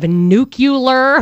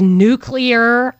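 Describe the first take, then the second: First: The word is said as nu-cu-lar. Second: The word is said as nu-clear. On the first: The speaker calls it wrong. "instead of nuclear" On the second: The speaker calls it right. "he says nuclear"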